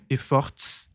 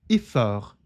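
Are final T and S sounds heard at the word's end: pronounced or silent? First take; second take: pronounced; silent. First: The final T and S sounds are pronounced. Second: The word ends on the R sound. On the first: The speaker calls it wrong. "Não é efforts" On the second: The speaker calls it right. "ignorando a pronúncia desse T S"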